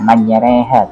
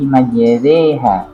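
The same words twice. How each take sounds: First: The e vowel has a regional coloring. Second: The e vowel is plain, as in sate. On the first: The speaker calls it wrong. "bukan bukan kayak sampean majereha" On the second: The speaker calls it right. "standar bunyinya itu sama kayak kita bilang sate"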